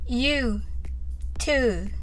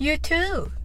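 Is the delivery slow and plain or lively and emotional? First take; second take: slow; emotional. First: It is said slowly and plainly. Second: It is said with feeling, stressing too. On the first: "はじめはゆっくりです。" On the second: "気持ちを込めて言ってみましょう。どちらかというとtoo を強みに言いましょう。"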